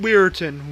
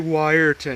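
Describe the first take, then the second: First: The first syllable sounds like 'weer'. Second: The first syllable sounds like 'why'. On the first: This is how the spelling suggests it is said. The speaker calls it right. "probably is Weirton because the E is in front of the I" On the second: This is how the speaker habitually says it. The speaker calls it wrong. "I say Wyerton"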